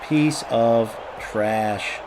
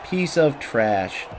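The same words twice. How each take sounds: First: Drawn-out, low put-down with spaced words; very slow insult. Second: Slow insult. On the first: Player insulting an opponent in the game, very slow and low. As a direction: stretch each word right out, low and slow. Same insult repeated, slower still. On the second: Player insulting an opponent in the game, slow and muted. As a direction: say it slowly, drawing out the words. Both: Real, not acted.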